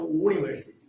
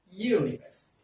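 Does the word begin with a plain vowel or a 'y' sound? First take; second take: plain vowel; y sound. First: The word starts with a plain vowel sound. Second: The word starts with a 'y' sound. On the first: The speaker calls it wrong. "It is not university" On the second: The speaker calls it right. "it is university"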